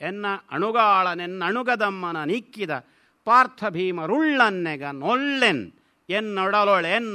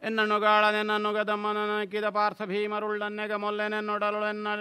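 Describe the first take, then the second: First: It is read with emphasis marking word boundaries. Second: It is read flat, with no word emphasis. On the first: The word divisions become clear to the listener. The speaker calls it right. "ಈ ಥರ ಓದಿದರೆ ಮಾತ್ರ ಅದರ ಪ್ರಯೋಜನ ಆಗ್ತದೆ" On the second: The word divisions cannot be understood. The speaker calls it wrong. "ಈ ರೀತಿ ಹೇಳಿದರೆ ಗೊತ್ತಾಗಲಿಲ್ಲ"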